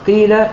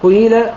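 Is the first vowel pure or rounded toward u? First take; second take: pure; rounded. First: The first vowel is a pure i sound. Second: The first vowel starts with slightly rounded lips. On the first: "بدون إشمام" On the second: "بالإشمام"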